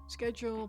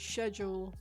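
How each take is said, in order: First: The word begins with an 'sk' sound. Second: The word begins with an 'sh' sound. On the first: This is the American pronunciation. "predominantly American pronunciation" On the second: This is the British pronunciation. "traditional British pronunciation, relative to shed"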